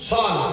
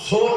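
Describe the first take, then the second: First: The vowel is an open a sound. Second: The vowel is a rounded o sound. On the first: The speaker calls it right. "সল, সোল না, সল" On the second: The speaker calls it wrong. "সোল না"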